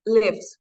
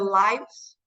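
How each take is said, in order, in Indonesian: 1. Vokalnya bunyinya seperti di 'give'. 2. Vokalnya bunyinya seperti di 'life'. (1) "Itu kita pakai yang kedua, pronounce-nya lives" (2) "Kalau hidupnya banyak orang, ya kita tambahin S, itu kita bacanya"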